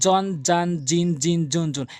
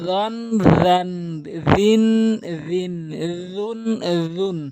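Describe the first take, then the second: First: The first consonant sounds like a j sound. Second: The first consonant uses the tongue tip at teeth. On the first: The speaker calls it wrong. "একদম ভুল।" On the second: The speaker calls it right. "এভাবে জিব্বার আগা এবং সামনে দুই দাঁতের আগা মিলাবেন"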